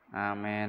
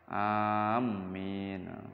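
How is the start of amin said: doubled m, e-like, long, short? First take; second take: e-like; doubled m. First: The long first vowel leans toward e. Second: The m sound is doubled and held. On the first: "dibaca panjang tapi dibaca imalah" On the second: "Yang keempat mimnya ditasdid"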